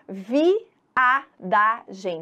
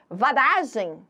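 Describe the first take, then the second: First: Each syllable is separated and the i is heard. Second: The syllables run together and the i is dropped. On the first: The speaker calls it right. "Você percebe o som do I claramente" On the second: The speaker calls it wrong. "tudo junto"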